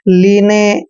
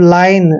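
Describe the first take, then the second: First: The vowel sounds like 'ee', with a final 'e'. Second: The vowel sounds like 'eye', with no final vowel. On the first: The speaker calls it wrong. "अक्सर जो शुरू से English को पढ़ते हैं इसको पढ़ेंगे लीने ... ऐसे नहीं रीड करना है" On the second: The speaker calls it right. "I N E का उच्चारण आइन करते हैं"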